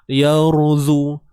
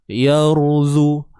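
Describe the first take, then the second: Both takes have the same delivery.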